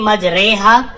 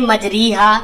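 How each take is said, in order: First: The middle vowel is an e sound. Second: The middle vowel is a long ee sound. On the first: The speaker calls it right. "तो ये मजहूल है" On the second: The speaker calls it wrong. "तो ये मारूफ है"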